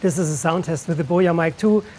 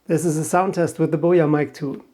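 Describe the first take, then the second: First: A mild low cut, with rain noise behind. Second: Voice boost is on, in a quiet room. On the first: "with the low cut filter set to seventy-five hertz" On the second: "This time I enabled voice boost"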